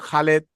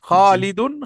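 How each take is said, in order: First: It has an 'e' vowel and no ending. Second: It has an 'i' vowel and ends in '-un'. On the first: "Bangla উচ্চারণে একটু ওই যে একার" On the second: "আরবি উচ্চারণ"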